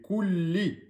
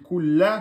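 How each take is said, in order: First: The word ends with an 'i' vowel. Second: The word ends with an 'a' vowel. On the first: The speaker calls it right. "C'est kulli" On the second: The speaker calls it wrong. "Si vous dites kulla, c'est faux"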